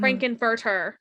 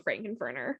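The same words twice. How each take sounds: First: Frank-N-Furter with a crisp T in "Furter"; corrected Frank-N-Furter. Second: Frank-N-Furter with an N for the T, like "Furner"; slip on Frank-N-Furter. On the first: Speaker fixing their own slip, Frank-N-Furter carefully enunciated. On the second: Praising the actor's role, Frank-N-Furter slipped into "Furner". Slips on name, then corrects it. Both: Real, not acted.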